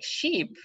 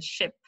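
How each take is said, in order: First: "sheep" with a long ee; long vowel. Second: "ship" with a short i; short vowel. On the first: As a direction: draw out the vowel of "sheep", unlike "ship". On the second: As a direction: keep "ship" short, unlike "sheep". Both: Shown as a demonstration. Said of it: "it's different word".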